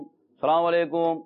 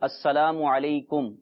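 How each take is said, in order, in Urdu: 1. سلام کی آوازیں بگڑی ہوئی اور مسخ شدہ ہیں۔ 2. سلام کی ہر آواز واضح طور پر ادا کی گئی ہے۔ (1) "یہ انداز درست نہیں ہے" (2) "اس کا صحیح تلفظ یہ ہے"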